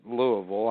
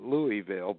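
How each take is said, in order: First: It is said the way locals say it. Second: It is said the way the spelling reads. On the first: This is how people from the city say it. "They pronounce it Louisville" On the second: This is how people who only read the name say it. "when people read it, they call it Louisville"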